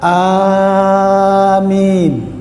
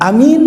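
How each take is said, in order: First: The first vowel is said long. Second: The first vowel is said short. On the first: The speaker calls it right. "Yang benar amin. A-nya panjang" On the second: The speaker calls it wrong. "amin salah"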